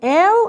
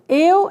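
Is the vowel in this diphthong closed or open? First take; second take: open; closed. First: The vowel is pronounced open. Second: The vowel is pronounced closed. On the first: "el é aberto" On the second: "eu é fechado"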